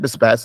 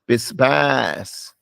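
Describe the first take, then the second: First: The second vowel is short. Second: The second vowel is stretched long. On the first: The speaker calls it wrong. "Not bisbas" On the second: The speaker calls it right. "it's bisbas. Stretch what's long"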